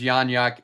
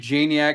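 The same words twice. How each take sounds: First: The name begins with a Y sound. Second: The name begins with an English J sound. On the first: This follows the name's Polish origin. "the c- proper pronunciation is, Ya- is Janiak if we want to be technical" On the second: The speaker keeps a familiar anglicized version of the name. "I'm still going to say Janiak because it's such a cool name"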